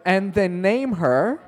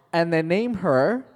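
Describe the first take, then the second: No difference in how they are said.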